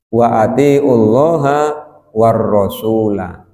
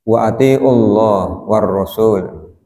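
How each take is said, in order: First: The final short vowels are pronounced on each word. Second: The final short vowels are dropped from each word. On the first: The case ending follows the word before it. The speaker calls it right. "Fathah ya harus fathah" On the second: The reader avoids committing to a case ending. The speaker calls it wrong. "Kan ini diwakaf kabeh"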